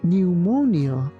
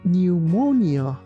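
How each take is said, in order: No difference in how they are said.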